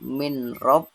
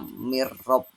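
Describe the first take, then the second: First: The n is pronounced before the r. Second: The n merges into a doubled r. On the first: This is how it is written. "tulisannya min rob" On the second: This is how it is read. "tapi bacanya mirrob"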